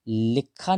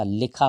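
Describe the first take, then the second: First: लिखा said as "lik-khaa" with a held k; wrong doubled sound. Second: लिखा said as "li-khaa", one kh; correct single sound. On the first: Teacher showing the misspelling, लिखा with a heavy doubled k. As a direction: lean on a doubled k in लिखा, slowly. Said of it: "लिखा नहीं होता". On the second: Teacher giving the right spelling, लिखा with a single kh. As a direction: keep the kh in लिखा single and light. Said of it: "लिखा होता है, केवल". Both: Shown as a demonstration.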